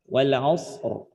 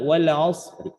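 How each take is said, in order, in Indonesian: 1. Huruf r terakhir diakhiri tanpa vokal setelahnya. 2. Huruf r terakhir membawa vokal pendek yang samar dan pelan. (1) "disukunkan bunyi roknya" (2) "dengan cara raum"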